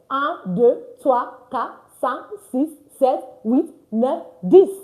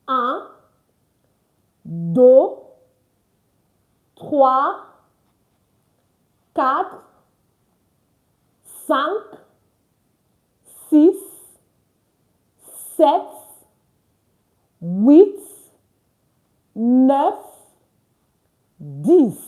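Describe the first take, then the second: First: The numbers are counted at a fast pace. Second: The numbers are counted at a slow pace.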